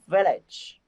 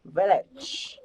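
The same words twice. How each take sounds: First: "village" slowed down with a clear final "ch". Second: "Village" with a stronger final "ch" and a rising end; final sound stressed. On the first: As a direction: stretch "village", finish on "ch". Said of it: "vẫn còn cái từ ch". (nói chậm "village", rõ âm "ch" cuối) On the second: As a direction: hit the ending of "Village" harder. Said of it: "làm mạnh cái từ ở cuối". (làm mạnh âm cuối của "Village") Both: Shown as a demonstration.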